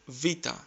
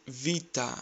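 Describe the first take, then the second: The two takes are said the same way.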